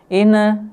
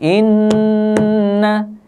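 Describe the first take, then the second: First: The nasal n is cut off very briefly. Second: The nasal n is held a moderate time. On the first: The speaker calls it wrong. "Inna itu salah banget, ya tidak tepat karena belum mendengungkan secara sempurna" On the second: The speaker calls it right. "Yang benar seperti tadi"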